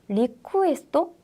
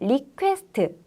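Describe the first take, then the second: First: It is said with Japanese syllables, ending in -to. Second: It is said the English way, ending in -st.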